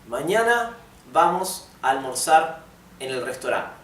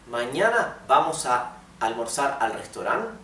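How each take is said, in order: First: It is said with a statement intonation. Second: It is said with a question intonation. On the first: The speaker states a plan for tomorrow. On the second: The speaker asks about a plan for tomorrow.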